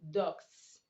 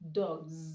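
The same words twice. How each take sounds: First: The final sound is a hissing s. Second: The final sound is a buzzing z. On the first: The speaker calls it wrong. "You don't go saying dogs" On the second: The speaker calls it right. "You say dogs. You ought to say dogs because the sound before the S is a voiced consonant"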